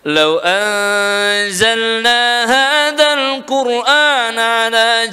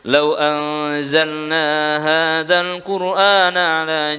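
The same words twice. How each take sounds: First: It is recited in a higher, emphatic voice. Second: It is recited in a plain, normal voice. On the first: "Untuk penekanan kita baca lebih tinggi" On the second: "kalau bacaan biasa seperti ini"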